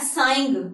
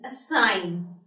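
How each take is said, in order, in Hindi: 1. शब्द में g की ध्वनि बोली जाती है। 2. शब्द में g की ध्वनि मौन है। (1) "It's not assigned" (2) "the letter G is not being pronounced"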